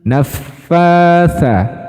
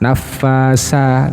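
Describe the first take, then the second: First: The consonant is a soft th without hissing. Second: The consonant is a hissing s sound. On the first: The speaker calls it right. "tapi tha" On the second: The speaker calls it wrong. "Tha-nya ini biasanya tertukar dengan huruf sa"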